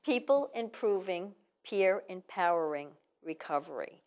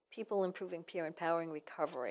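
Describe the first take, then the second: First: Slow, word-by-word delivery; measured, with gaps between the words; said slowly. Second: Quick, run-together name; said fast. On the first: Shown as a demonstration. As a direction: spell out the name at half speed. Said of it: "Say it slow". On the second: Real, not acted. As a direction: rattle off the organization's full name. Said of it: "easier now to say it fast".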